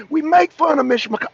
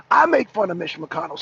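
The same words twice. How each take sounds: First: Said in the usual way. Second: "I" stressed, in a lower voice. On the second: Real, not acted. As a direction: correct yourself by leaning on "I". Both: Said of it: "I'm sorry, Deacon, not you".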